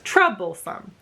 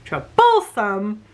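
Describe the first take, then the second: First: The stress is on the first syllable. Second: The stress is on the second syllable.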